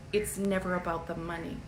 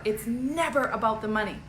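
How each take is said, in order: First: Softer, low-key take on "It's never about the money"; quiet. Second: Said in the usual way. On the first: Shown as a demonstration. Telling her audience softly it's never about the money.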